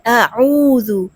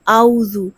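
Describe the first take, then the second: First: The throat sound before 'oo' is clearly pronounced. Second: The throat sound before 'oo' is left out. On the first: The speaker calls it right. "जबकि क्या है अऊज़ु" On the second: The speaker calls it wrong. "आऊज़ु नहीं है, आइन को बिल्कुल पढ़ते ही नहीं"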